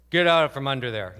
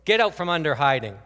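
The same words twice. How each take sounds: First: Loud booming command from an angry father; big fatherly yell from the hallway; dad's big angry voice. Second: Loud booming movie-God command; booming divine order, loud and stern; great big voice. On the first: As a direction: boom it out like a mad dad. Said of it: "his big voice was". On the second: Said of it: "with a great big voice". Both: Retold or imitated.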